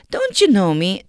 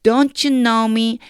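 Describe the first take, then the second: First: "Don't you know me" asked with a rising tune; asking as a question. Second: Slow, louder, higher-pitched "Don't you know me"; reproach rather than question. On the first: Shown as a demonstration. Teacher showing how to ask "Don't you know me", questioning tune. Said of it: "이렇게 물어볼 수 있어요". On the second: Acted. Teacher as Jesus to Philip, drawn-out reproachful "Don't you know me". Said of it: "질문이라기보다는요".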